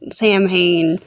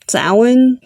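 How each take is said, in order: First: It is pronounced the way it is spelled. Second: It is pronounced differently from its spelling. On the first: The speaker calls it wrong. "that's the phonetics from like an English speaking brain" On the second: The speaker calls it right. "this word is pronounced Samhain"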